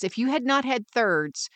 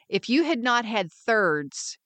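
First: "not" stressed and falling. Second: "you" stressed, said slowly. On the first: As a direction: hit the word "not". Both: Shown as a demonstration.

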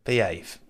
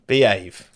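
First: Quiet behave. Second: Louder behave. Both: Shown as a demonstration.

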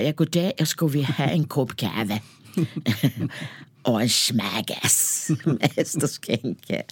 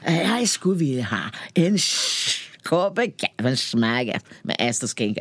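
First: Mock Danish, slow and drawn-out; ordering coffee in made-up Danish, slowly; fake Danish. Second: Repeated order in mock Danish; fake Danish. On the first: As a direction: bluff your way through it in fake Danish. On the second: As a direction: try the fake Danish once more for the barista. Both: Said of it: "man låtsades att man kunde danska".

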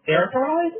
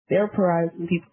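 First: "Therapize?" pitched higher as a question; self-questioning. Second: Said in the usual way. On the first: Real, not acted. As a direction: query your own word "Therapize?". Questions own made-up word.

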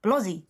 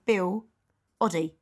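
First: Bill Oddie run together as a single name. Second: Bill, then a clear pause, then Oddie; two separate names. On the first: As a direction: say Bill Oddie as one word, no gap. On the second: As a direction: split Bill Oddie into two distinct words. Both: Shown as a demonstration. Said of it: "like, not one name".

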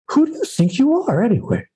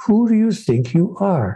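First: High-pitched imitation of a challenging father; father's challenging question. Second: Higher-pitched, earnest rhetorical question; spiritual question. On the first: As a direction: put the question like an exasperated dad. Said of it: "he asked me periodically the same question". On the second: Shown as a demonstration. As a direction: pose it as a sincere question. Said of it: "the spiritual question of all time".

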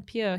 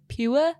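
First: Said in the usual way. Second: "pure" drawn out slowly as two syllables, pyoo-uh; Welsh pronunciation. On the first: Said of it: "rather than pure". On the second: Retold or imitated. Host showing Drippy's way with "pure", Welsh pronunciation. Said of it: "he says pure".

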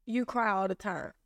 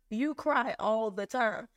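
First: Said in the usual way. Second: Slow, deliberate "You cry all the time"; emphatic repeat. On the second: Retold or imitated. Friend repeats it after her question.

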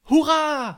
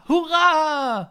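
First: High, loud cheer; shouted hurrah. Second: High, loud, drawn-out cheer; shouted hurrah. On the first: The three dogs cheer before the royal coach, loud and high. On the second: The dogs cheer again for the new king, a long loud high shout. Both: A narrator's reading. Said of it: "dansede foran og råbte".

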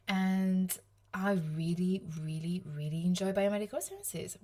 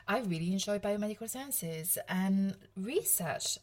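First: Overdoing really, really, really before enjoy; gushing triple really. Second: Said in the usual way. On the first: Real, not acted. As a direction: pile on the word really with eager emphasis. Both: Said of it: "Wow, that was a lot of really".

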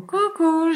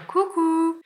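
First: High, sing-song coucou from a stranger; mimicking the other guy's hello. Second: High, sing-song coucou; cute little hello. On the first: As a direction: chirp it up high, copying him. Un autre mec lui fait coucou. (coucou aigu imité de l'autre mec) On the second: Retold or imitated. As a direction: chirp it up high like a shy wave. Petit coucou discret de la main. (petit coucou aigu et chantant)

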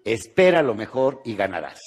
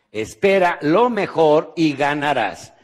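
First: Said in the usual way. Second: Slow, emphatic. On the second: Shown as a demonstration. Seminar speaker giving the audience homework, slow and emphatic. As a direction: say "Espera lo mejor y ganarás" slowly, leaning on "lo". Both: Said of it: "muy importante".

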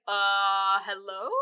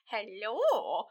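First: Drawn-out, questioning mock hello; hesitant greeting. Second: Swooping, drawn-out soft hello; suggestive greeting. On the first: Moliere greeting the wife at his room, hesitant questioning hello. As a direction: greet an unexpected visitor uncertainly. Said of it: "he's just like". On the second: Retold or imitated. Wife turning up at Moliere's room, swooping soft hello. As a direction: let the hello swoop up and fall. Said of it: "She's like".

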